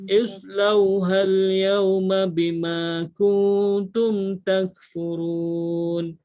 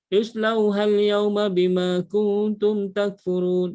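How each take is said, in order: First: The phrase is read slowly, sound by sound. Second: The phrase is read quickly, sounds run together. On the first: Every sound and vowel length is given its due. The speaker calls it right. "baca satu persatu perlahan" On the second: The sounds and vowel lengths are not given fully. The speaker calls it wrong. "dia bukan baca laju"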